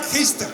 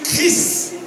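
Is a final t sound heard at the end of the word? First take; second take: yes; no. First: The word ends with an audible t sound. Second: The word ends without any t sound. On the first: It names the religious figure, not the speaker. "Il faut mettre le T" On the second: It names the speaker himself. "C H R I S"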